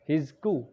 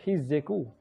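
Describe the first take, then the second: First: No vowel is heard between the middle consonants. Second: A short vowel is heard between the middle consonants. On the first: "harusnya hizku" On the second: "karena di sini ada huruf bertasydid ... dibaca hizzeku"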